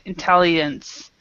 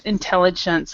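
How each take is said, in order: First: It is said with Spanish-style sounds. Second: It is said with English-style sounds. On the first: The speaker calls it wrong. "kind of the Spanish way of saying it" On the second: The speaker calls it right. "So remember"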